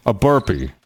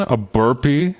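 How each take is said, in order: First: "burpee" said with a settled falling tune; flat statement. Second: Puzzled rising tune on burpee; questioning rise. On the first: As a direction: confirm "burpee" with a downward close. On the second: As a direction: ask "burpee" with a doubtful upward lilt. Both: Shown as a demonstration.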